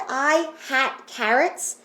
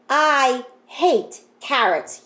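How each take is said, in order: First: The middle word has a short A vowel. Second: The middle word has a long A vowel. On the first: The speaker calls it wrong. "does that sentence even make sense?" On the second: The speaker calls it right. "flip that short A into a long A"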